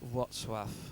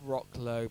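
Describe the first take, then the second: First: The name is said with its native pronunciation. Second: The name is read as English 'Rocklow'. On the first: The speaker calls it right. "but it's pronounced Wrocław" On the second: The speaker calls it wrong. "It looks like Rocklow"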